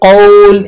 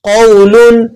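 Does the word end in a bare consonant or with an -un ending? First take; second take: bare consonant; -un ending. First: The word ends on a bare l sound. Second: The word ends with an added -un sound. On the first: The reader stops on this word. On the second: The reading continues without stopping.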